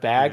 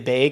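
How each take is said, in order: First: The vowel is said with a standard accent. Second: The vowel is said with a regional accent. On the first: This is how most other people say it. "instead of" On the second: This is how the local people say it. "They'll say"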